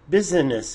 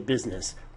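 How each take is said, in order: First: The word is said with three syllables. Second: The word is said with two syllables.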